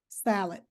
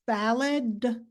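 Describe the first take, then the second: First: The final d sound is not clearly voiced. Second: The final d sound is clearly voiced. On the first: "Some students may pronounce it as salad" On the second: "when you have a voice sound, like that final sound in salad"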